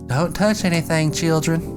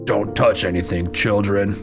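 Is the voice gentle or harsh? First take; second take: gentle; harsh. First: It is said in a soft, kind voice. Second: It is said in a harsh, stern voice. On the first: The speaker calls it right. "Now I gotta go back and Mister Rogers this shit" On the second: The speaker calls it wrong. "my fucking voice was just like a cop"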